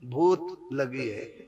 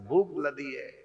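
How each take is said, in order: First: The word is lisped like a toddler, kh becoming t. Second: The word is pronounced clearly, with a plain kh.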